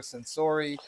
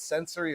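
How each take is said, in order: First: Sensory said as SEN-suh-ree; SEN-suh-ree pronunciation. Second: Sensory said as sen-SOR-ee; sen-SOR-ee pronunciation. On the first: Giving the surname's alternative, Sensory as SEN-suh-ree. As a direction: stress the first syllable of Sensory, middle reduced. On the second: Unsure of the wife's surname, Sensory as sen-SOR-ee. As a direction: put the stress on an "or" in the middle of Sensory. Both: Shown as a demonstration. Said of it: "I don't know if it's".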